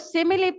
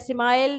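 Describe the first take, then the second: First: The word is said with three syllables. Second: The word is said as one syllable. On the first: The speaker calls it right. "इसको सिमिली pronounce किया जाता है" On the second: The speaker calls it wrong. "स्माइल नहीं"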